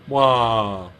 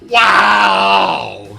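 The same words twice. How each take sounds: First: It is a weak, understated reaction imitating her. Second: It is an exaggerated, over-the-top reaction.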